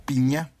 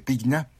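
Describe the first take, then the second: First: The gn is sounded as an ñ. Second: The g is sounded as a hard g. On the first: "creo que se pronuncia Piña" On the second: "con G, Pigna se escribe"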